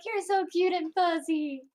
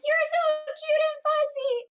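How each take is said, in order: First: Higher, lightly squealed repeat; mild squeal. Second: Very high, loud squeal. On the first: Retold or imitated. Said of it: "just be like". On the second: Acted. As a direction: squeal like a gushing fangirl. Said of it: "just squeals and hugs".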